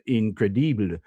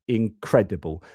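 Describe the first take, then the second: First: The stress is on the third syllable. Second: The stress is on the second syllable. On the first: "do a French accent is to try and stress the third syllable" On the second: "the stress goes on the cred"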